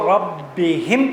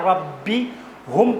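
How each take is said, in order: First: The pronoun is said with an 'i' vowel. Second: The pronoun is said with a 'u' vowel. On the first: The speaker calls it right. "पढ़ना आसान है" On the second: The speaker calls it wrong. "पढ़ना ज़बान से सकील है"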